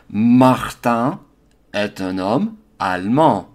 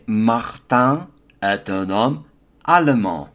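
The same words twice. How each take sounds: First: The middle vowel of allemand is dropped. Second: The middle vowel of allemand is pronounced. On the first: This is the standard pronunciation. "Notice I'm pronouncing German, allemand, in the standard form" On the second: This is the southern pronunciation. "I could additionally say"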